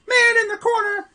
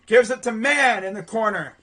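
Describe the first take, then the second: First: Very high, loud play-by-play cry; excited shout. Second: Excited call of the pass; live play-by-play. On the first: Commentator urges on the corner shot, high excited shout. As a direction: shoot the repeated call way up high. Repeats call as shot goes up. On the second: Commentator follows ball to the corner, excited play-by-play. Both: Real, not acted.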